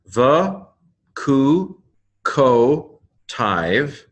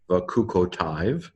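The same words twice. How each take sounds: First: Higher, separate held syllables. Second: Said in the usual way. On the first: Shown as a demonstration. Teacher breaking down a Hebrew word, syllable by syllable. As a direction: sound out "the, ku, ko, tiv" with gaps between. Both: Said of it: "the Hebrew pronunciation".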